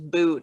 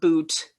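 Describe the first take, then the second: First: The final T sound is dropped. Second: The final T sound is clearly pronounced. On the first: "we drop our T's a lot, especially if it's at the end of a word" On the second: "and not boot"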